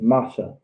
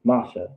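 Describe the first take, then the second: No difference in how they are said.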